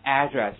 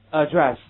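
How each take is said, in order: First: "Address" as AD-dress, first syllable stressed; American stress. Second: Loud "Address" as a-DRESS; stress on second syllable. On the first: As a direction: hit the AD in "Address" with an open a. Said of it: "美国人会给它重音调一个位置". (美式读Address，重音在第一音节) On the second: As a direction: hit the DRESS in "Address", weak first vowel. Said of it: "所有的美国人会给它重音调一个位置". (Address重音放在第二音节) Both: Shown as a demonstration.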